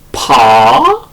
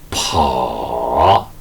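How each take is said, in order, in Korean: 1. 음높이가 중간에서 높게 올라가요. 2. 음높이가 낮게 떨어졌다가 올라가요. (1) "제이 성으로" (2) "제삼 성으로"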